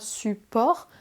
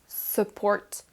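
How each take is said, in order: First: The word is said with a French-like pronunciation. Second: The word is said with an English pronunciation. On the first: The speaker calls it wrong. "on ne dit pas support" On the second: The speaker calls it right. "mais support"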